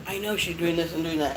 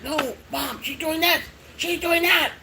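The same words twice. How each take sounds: First: Said in the usual way. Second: Put-on complaining kids. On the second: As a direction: imitate kids telling on the puppy to Mom. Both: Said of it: "they'll be like".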